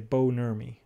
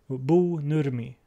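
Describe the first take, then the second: First: The name is said with an American accent. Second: The name is said with a Swedish accent. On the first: "so in English, I say" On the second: "would be the Swedish pronunciation"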